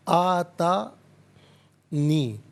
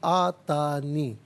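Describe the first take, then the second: First: It is said as two separate parts. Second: It is said as one joined word. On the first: "अलग-अलग हैं ये" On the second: "मिलाकर पढ़ेंगे"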